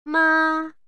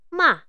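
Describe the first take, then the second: First: It is said with the first tone. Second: It is said with the fourth tone. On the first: "Bunyi yang pertama" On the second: "Dan bunyi keempat"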